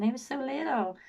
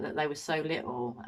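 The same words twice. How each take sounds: First: High-pitched mock little-girl imitation; mocking high American-style simper; pathetic, childlike voice. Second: Said in the usual way. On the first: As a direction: mimic her as pathetically childlike, pitched right up. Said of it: "her voice was so pathetic". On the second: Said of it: "when she said that".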